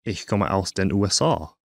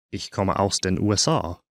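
The two takes are said the same way.

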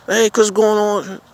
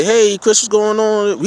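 First: High greeting, drawn out slowly; a slow, deliberate hey-Chris greeting; slow friendly hello. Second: High, cheery greeting to a friend; a bright, easy hey-Chris hello; friendly hello. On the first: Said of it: "you know my name". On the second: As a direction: greet him like an old buddy. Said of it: "Don't say". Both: Pretend.

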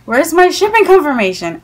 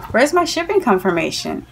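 First: Higher-pitched, insistent questioning; retold complaint, pressing hard for an answer; exasperated demand. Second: Mildly put-out query, not raised in volume; politely pressing for an answer; restrained impatient question. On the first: Repeated acted demand, more insistent. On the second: Retold or imitated. First acted question to seller.

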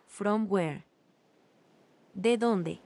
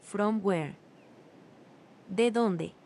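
The two takes are said the same way.

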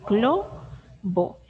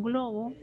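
First: Globo split into glo, pause, bo, with glo loud; syllable by syllable. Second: Said in the usual way. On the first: Shown as a demonstration. Teacher answering which are the sílabas, globo broken slowly into glo and bo. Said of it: "¿Cuáles son? Las sílabas". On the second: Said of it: "Las sílabas globo".

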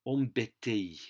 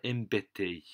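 First: Embêté said with a nasal "on" and a final "ti"; the wrong take of embêté, nasal "on" start, "ti" ending; mispronounced embêté. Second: Embêté with "em" start and a clear final é; the right take of embêté, open "ê" and closing é; corrected embêté. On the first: French teacher trips on embêté before correcting. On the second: French teacher corrects embêté for the class. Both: Shown as a demonstration. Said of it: "sorry, I mispronounced that".

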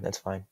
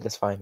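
First: "That's fine." said much softer, fading to a mumble; resigned mutter. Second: Said in the usual way. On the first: Real, not acted. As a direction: let "That's fine." die away.

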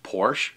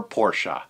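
First: Porsche as "porsh"; one-syllable Porsche. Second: Porsche as "POR-shuh", dropping lower; two-syllable Porsche. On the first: Saying easygoing people accept either, Porsche said as "porsh". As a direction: end Porsche on the "sh", no vowel after. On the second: Saying easygoing people accept either, Porsche said as "por-shuh". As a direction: add an "uh" to the end of Porsche. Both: Shown as a demonstration. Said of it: "pronounced one way or the other".

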